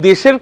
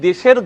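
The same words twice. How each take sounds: Both takes have the same delivery.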